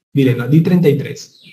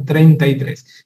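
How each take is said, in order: First: Said in the usual way. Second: "Treinta y tres" despacio y marcado; treinta y tres lento. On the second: Shown as a demonstration. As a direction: pronuncia "Treinta y tres" lento, cada sílaba clara. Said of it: "Sánchez enseñaba eso". ("Treinta y tres" dicho lento, cuidando la R)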